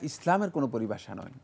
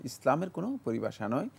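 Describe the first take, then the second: Both takes have the same delivery.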